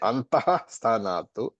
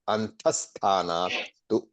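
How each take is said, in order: First: The visarga is said as a full 'ha' syllable. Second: The visarga becomes a short 's' joining the words. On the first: The speaker calls it wrong. "don't say antaha sthanatu" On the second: The speaker calls it right. "the visarga turns into a half S in chanting"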